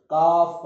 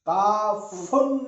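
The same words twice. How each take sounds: First: काफ said loudly, closed on a bare f; firm, loud काफ with a silent ending; vowelless ending. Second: काफुन with a held -un added after the f; loud teacher's demo of काफुन ending in -un; wrong vowel ending. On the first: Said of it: "काफ पढ़ते हैं". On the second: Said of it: "काफुन नहीं पढ़ेंगे". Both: Shown as a demonstration.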